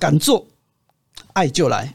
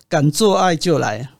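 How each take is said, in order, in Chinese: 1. 第二个音节后面有停顿。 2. 这个短语说得很流畅，中间没有停顿。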